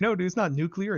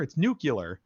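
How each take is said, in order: First: "nuclear" as NOO-klee-er, high-pitched; high mock protest, "nuclear" said noo-klee-er; mimicked NOO-klee-er. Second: "nuclear" said as NOO-kyuh-ler; mimicked nucular. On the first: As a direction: imitate an objector quoting "nuclear" with KLEE. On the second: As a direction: imitate the corrector's "nucular", pitched up. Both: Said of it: "And they're like".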